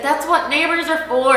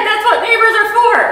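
First: Said in the usual way. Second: Much higher and louder, stressing what; loud, high wonder on what; emphatic repeat. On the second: Retold or imitated. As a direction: repeat it in amazement, hitting what. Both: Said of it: "That's what he said".

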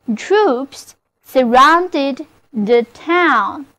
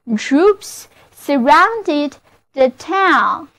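First: Slower repeat. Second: Slow model reading. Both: Shown as a demonstration. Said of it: "就是".

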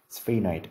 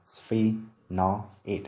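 First: Said in the usual way. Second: Sphenoid slowly, split into separate syllables; slow, segmented teaching demo of "sphenoid"; syllable-by-syllable pronunciation. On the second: Shown as a demonstration. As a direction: sound out "sphenoid" piece by piece. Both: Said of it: "Phát âm của từ này là".

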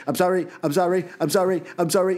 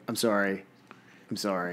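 First: Higher, crammed "I'm sorry, I'm sorry" in a light imitation of the singer; imitating a pop-punk singer's rushed finale. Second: Soft, low, deadpan "I'm sorry"; mock monotonous reading; monotone apology. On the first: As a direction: squeeze too many syllables into the beat. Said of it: "The way [name] delivers the "I'm sorry". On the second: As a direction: mumble "I'm sorry" quietly, without any lift. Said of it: "two hours of you going".

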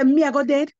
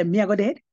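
First: Me, I go dead. stated firmly, higher and louder, falling on dead; defiant, fearless statement; bold defiance. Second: Me, I go dead? asked with a rising, doubtful lift on dead; puzzled echo of the news; questioning, not yet believing; disbelieving question. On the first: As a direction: throw the words back with boldness. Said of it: "I don't know where I get this boldness from". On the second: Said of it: "Me say". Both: Retold or imitated.

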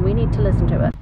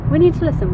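First: Said in the usual way. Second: "We NEED to listen" said high and loud; insistent. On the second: Real, not acted.

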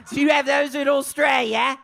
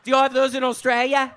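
First: High-pitched, hammed-up Australian accent. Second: Said in the usual way. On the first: Shown as a demonstration. Comic asking about candy in Australia, hammed-up Australian accent. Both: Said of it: "That's my Australian accent".

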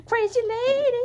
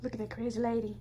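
First: Louder and higher teasing cry; playful exclaim. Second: Said in the usual way. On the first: Real, not acted. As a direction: call her out, loud and delighted. Exclaiming at the wild kitten.

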